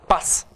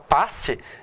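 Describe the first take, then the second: First: The final vowel is almost inaudible. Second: The final vowel is clearly pronounced. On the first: "eles vão falar pass" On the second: "Em vez de falar passe"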